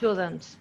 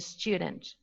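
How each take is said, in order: First: The vowel has no 'y' glide before it. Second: The vowel is preceded by a 'y' glide. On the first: "dropped uh, semivowel" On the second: "instead of saying student"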